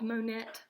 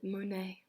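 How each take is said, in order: First: The final T is sounded. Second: The final T is silent. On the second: "We pronounce it"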